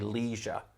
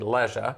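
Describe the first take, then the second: First: It is said with an American accent. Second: It is said with a British accent. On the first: "Americans say leisure" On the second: "in Britain would say leisure"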